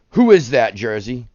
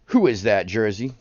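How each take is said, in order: First: Louder, punchy quiz to the chat; playful loud guessing game; teasing quiz call. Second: Said in the usual way. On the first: Real, not acted. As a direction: challenge the viewer to name it.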